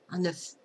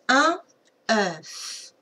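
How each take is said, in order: First: The vowel is said in a relaxed, everyday way. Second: The open vowel is strongly exaggerated. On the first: "c'est vrai que nous, souvent, on dit euh" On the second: "je vais exagérer, hein, comme ça tu vas bien entendre que c'est un E, c'est ouvert"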